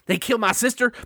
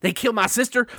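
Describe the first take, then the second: First: It is said in a put-on character accent. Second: The same.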